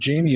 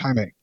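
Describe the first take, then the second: First: The name begins with an English J sound. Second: The name begins without an English J sound. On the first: The speaker calls it wrong. "It's not Jamie" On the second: The speaker calls it right. "the J don't sound like a J"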